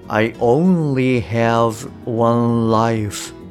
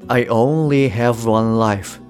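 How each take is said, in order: First: Each word is pronounced separately and distinctly. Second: The words flow together, with have one linked. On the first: "一語一語を意識して発音するとこういう感じになります" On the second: "そこを意識すると"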